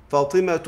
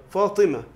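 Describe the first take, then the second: First: فاطمة as fatimatu, t and u sounded; linked form with t. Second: فاطمة as fatimah, t dropped; pausal h. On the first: Teacher quizzing on pausing, فاطمة given in full as fatimatu. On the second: Teacher answering the quiz, فاطمة in pausal form fatimah. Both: Shown as a demonstration. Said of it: "نقول إيه؟".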